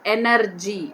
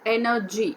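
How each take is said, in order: First: The r sound is clearly pronounced. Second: The r sound is left silent. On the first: The speaker calls it wrong. "not energy" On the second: The speaker calls it right. "R is given in the bracket. That shows it's a it's a silent one"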